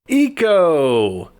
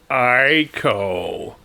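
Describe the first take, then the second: First: The name starts with an 'ee' sound. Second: The name starts with an 'eye' sound. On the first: The speaker calls it right. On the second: The speaker calls it wrong.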